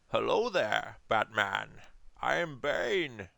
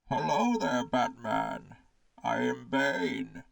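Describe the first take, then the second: First: The voice is plain, without a muffled echo. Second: The voice is muffled and echoey, like through a can.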